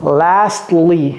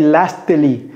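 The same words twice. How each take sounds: First: The T in the middle is dropped. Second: The T in the middle is pronounced. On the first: The speaker calls it right. "j'ai pas prononcé le T" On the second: The speaker calls it wrong. "j'ai pas dit lastly, c'est pas lastly"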